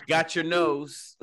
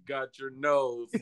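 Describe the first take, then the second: First: Slow, grand magician voice; drawn-out pompous showman. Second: Slow mocking pompous echo; drawn-out lordly imitation. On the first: Pretend. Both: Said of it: "Why you sound so pompous".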